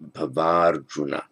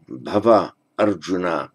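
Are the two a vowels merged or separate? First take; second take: merged; separate. First: The two a vowels merge into one long a. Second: The two a vowels are said separately.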